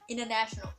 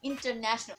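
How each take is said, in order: First: The T after the N is dropped. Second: The T after the N is pronounced. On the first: "you don't need to pronounce the T" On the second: "you don't need to pronounce the word as international"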